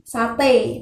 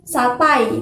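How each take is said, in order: First: The word ends with a single e vowel. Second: The word ends with a two-vowel glide. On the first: "pakai e" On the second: "perubahan dua bunyi vokal atau vokal rangkap"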